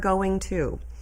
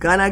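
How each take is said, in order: First: The two words are said separately and clearly. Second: The two words are run together into one. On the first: The speaker calls it right. "separating those words would give your delivery just a smidge more crispness" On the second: The speaker calls it wrong. "we love the word gonna"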